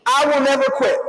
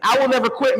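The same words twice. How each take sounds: First: "I will never quit" called out as a firm creed line to be echoed; reciting a creed. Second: Said in the usual way. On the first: Shown as a demonstration. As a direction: lead the final creed line for the room. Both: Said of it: "let's say it together".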